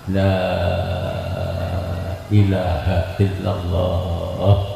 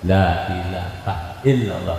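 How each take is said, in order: First: The long vowels are stretched out at length. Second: The long vowels are held only briefly. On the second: "Enggak enggak ada yang panjang-panjang ya, cuman dua dua harokat"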